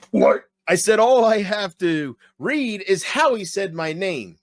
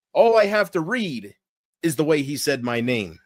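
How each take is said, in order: First: Hammed-up wrestling catchphrase delivery; Stone Cold. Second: Said in the usual way. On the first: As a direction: belt it out slowly like a wrestler on the mic. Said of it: "looking for a reason to do Stone Cold".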